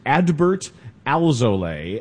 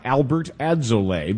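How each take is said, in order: First: The first name has D, the surname L. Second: The first name has L, the surname D. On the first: The speaker calls it right. "It is Adbert Alzolay" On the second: The speaker calls it wrong. "It's not Albert Adzolay"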